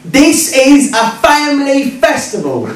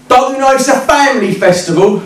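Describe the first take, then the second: First: Slow, high-pitched mock outrage; emphatic indignant repeat. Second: Higher-pitched indignant challenge; indignant heckler. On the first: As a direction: spell it out slowly, scandalised. Heckler repeats it after his "What?. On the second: Retold or imitated. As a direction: accost him with an affronted question. Pink-haired heckler confronts him, first time.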